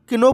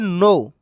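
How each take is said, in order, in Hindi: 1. यह शब्द बोले जाने वाले K से शुरू होता है। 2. यह शब्द साइलेंट K से शुरू होता है। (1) "किनो पढ़ना गलत होता है" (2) "इसमें के साइलेंट होता है"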